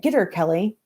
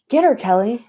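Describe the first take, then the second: First: Said in the usual way. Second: High, louder gleeful cheer. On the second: Acted. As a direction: egg her on loudly from the crowd.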